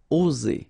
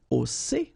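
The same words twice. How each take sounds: First: The middle consonant is a buzzing Z sound. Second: The middle consonant is a hissing S sound. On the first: "it's Z" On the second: "If you would have deux S instead, you will pronounce it"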